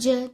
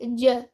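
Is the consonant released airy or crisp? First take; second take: airy; crisp. First: The consonant is released with extra air. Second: The consonant is released crisply without extra air. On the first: The speaker calls it wrong. "don't give excess air on jim, not j" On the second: The speaker calls it right. "Rather, it will be j"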